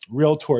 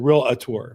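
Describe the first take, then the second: First: The word is said as reel plus tor. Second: The word is said in a different, common form. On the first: The speaker calls it right. "Realtor is a proper pronunciation. Realtor, one who reels" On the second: The speaker calls it wrong. "as opposed to realtor, which people have all the time"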